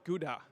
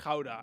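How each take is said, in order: First: Gouda is said with an English pronunciation. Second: Gouda is said with a Dutch pronunciation. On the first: This is how outsiders know the name. "a place that you probably know as Gouda from the cheese" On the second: This is how locals say the name. "We pronounce it as Gouda"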